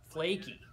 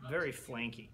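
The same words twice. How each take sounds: First: Said in the usual way. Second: "flanky" said with a stray n, like flank; slip to flanky. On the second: Real, not acted. Mouths "flanky" by mistake while praising the pastry. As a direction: fumbles flaky into "flanky". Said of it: "It's not like a steak, huh?".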